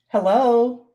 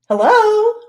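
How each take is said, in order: First: It is said in a lower-pitched voice. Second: It is said in a higher-pitched voice.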